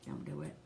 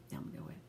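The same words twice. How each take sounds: First: Soft, pleading don't; hushed plea; quiet warning. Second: Much lower, fading near-whisper; barely voiced plea; near-whispered warning. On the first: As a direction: drop the voice low and beg. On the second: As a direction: let it sink to a breath. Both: Real, not acted. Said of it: "do not judge me".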